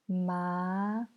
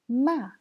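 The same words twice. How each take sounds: First: It is said with the second tone. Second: It is said with the fourth tone. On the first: "C'est le deuxième ton" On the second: "c'est le quatrième ton"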